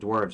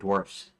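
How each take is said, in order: First: The word ends with a v sound. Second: The word ends with an f sound. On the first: "I pronounce it dwarves" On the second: "I don't pronounce it dwarfs like that"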